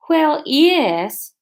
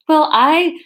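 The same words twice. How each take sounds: First: Put-on Scottish accent gone astray, higher; misfired attempt at Scottish; botched Scottish accent. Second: Higher, louder Scottish aye; emphatic put-on Scottish accent; Scottish accent retake. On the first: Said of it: "What was that?". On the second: Shown as a demonstration. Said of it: "way to keep the accent going".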